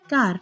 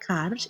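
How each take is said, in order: First: It begins with a G sound. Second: It begins with a K sound. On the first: This is the Western Armenian form. "in Western Armenian" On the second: This is the Eastern Armenian form. "in Eastern Armenian"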